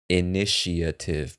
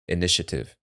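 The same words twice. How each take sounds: First: Every syllable is pronounced clearly and fully. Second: It is said quickly with syllables squeezed together. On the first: "If we're pronouncing all the syllables" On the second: "when speaking quickly"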